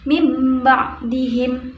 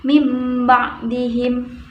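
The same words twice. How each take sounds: First: The nasal before b sounds like m. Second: The nasal before b sounds like m.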